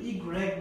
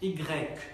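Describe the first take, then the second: First: The r sound is clearly heard. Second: The r sound is barely heard. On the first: The speaker calls it wrong. "ইগ্রেক বললে এটা মনে করুন যে একশো পার্সেন্ট শুদ্ধ না" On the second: The speaker calls it right. "এটা হচ্ছে পুরোপুরি শুদ্ধ"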